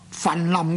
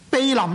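First: The first syllable is pronounced fan. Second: The first syllable is pronounced bei. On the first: "读作坟林呢是误读" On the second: "避临呢就是光临的意思"

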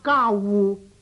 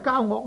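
First: The second syllable is pronounced wu. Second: The second syllable is pronounced ok. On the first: The speaker calls it right. "正確嘅读法呢应该系读交互" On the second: The speaker calls it wrong. "这个呢所谓交恶呢实在系读错咗嘅"

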